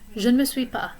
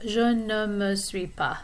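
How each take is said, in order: First: It is quick, with je and ne fused. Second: It is slow, with je and ne separate. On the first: This is how it sounds in fast conversation. "the je and the ne almost might fuse together and become like a contraction" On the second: This takes a long time to say. "Instead of je ne me suis pas. It would take a long time to say that"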